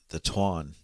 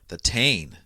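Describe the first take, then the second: First: The title is said with its native Irish pronunciation. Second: The title is said with an Americanized pronunciation. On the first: The speaker calls it right. "or the proper pronunciation" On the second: The speaker calls it wrong. "we'll call it the Tane because well, we're dumb Americans"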